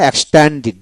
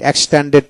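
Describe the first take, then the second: First: "এক্সটেন্ডেড" ending in "did", with an "i"; corrected pronunciation. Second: "এক্সটেন্ডেড" ending in "ded"; rejected pronunciation. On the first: Teacher explaining the last syllable is "dit", corrected pronunciation. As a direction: say "এক্সটেন্ডেড" as eks-tan-did. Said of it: "ডিতে ডিট উচ্চারিত হয়". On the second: Teacher showing the form not to use, rejected pronunciation. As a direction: say "এক্সটেন্ডেড" as eks-ten-ded. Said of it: "এক্সটেন্ডেড না". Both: Shown as a demonstration.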